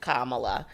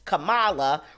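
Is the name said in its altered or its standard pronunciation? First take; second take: standard; altered. First: The name is said with its standard pronunciation. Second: The name is said with an altered pronunciation. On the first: The speaker calls it right. "correct pronunciation Kamala" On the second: The speaker calls it wrong. "deliberately mis- mispronounced Kamala Harris's name as Kamala"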